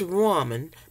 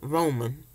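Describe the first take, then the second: First: The first syllable sounds like 'rah'. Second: The first syllable sounds like 'row'. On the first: This is the form others use. "I say it's ramen" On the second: This is how it is said in the South. "it's just the way I pronounce it"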